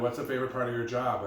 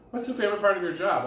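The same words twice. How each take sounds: First: Said in the usual way. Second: Higher, louder and faster repeat of the question; repeated in surprise. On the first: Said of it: "Kathy Lee Gifford ... said". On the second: Retold or imitated. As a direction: ask again, pushing it up with disbelief. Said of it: "She said, "What?".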